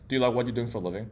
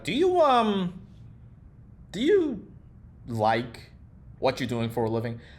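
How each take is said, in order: First: It is asked smoothly, without any pauses. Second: It is asked hesitantly, with pauses and skepticism.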